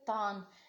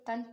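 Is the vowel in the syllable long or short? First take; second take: long; short. First: The vowel is drawn out long. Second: The vowel is kept short. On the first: The speaker calls it wrong. "इस तरीके से नहीं पढ़ना" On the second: The speaker calls it right. "तन पढ़ना है"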